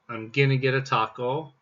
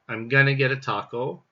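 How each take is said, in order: Both takes have the same delivery.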